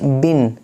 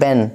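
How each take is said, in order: First: The vowel is a short i sound. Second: The vowel is an e sound. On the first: The speaker calls it right. "आपको मारूफ पढ़ना है" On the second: The speaker calls it wrong. "Not बेन"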